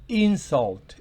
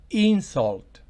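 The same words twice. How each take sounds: The two takes are said the same way.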